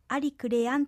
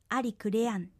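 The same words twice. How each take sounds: First: The voice rises at the end. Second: The voice does not rise at the end. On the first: The speaker calls it wrong. "最後ありクレアンと上がらずに" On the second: The speaker calls it right. "上がらずにありクレアンと発音してください"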